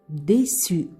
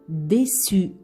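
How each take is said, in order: The two takes are said the same way.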